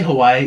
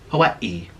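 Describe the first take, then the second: First: It is said the anglicized, tourist way. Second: It is said the native Hawaiian way. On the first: The speaker calls it wrong. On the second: The speaker calls it right. "it's pronounced Hawaii"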